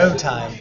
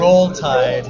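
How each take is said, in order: First: The word roll is said without the L sound. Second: The word roll ends with a clear L sound.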